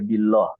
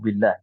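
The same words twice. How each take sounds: First: The L sound is heavy and full. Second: The L sound is light and thin. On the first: The speaker calls it wrong. "nggak boleh billah atau lillah ya tidak" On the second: The speaker calls it right. "Akan tapi tipis lillahi au billah"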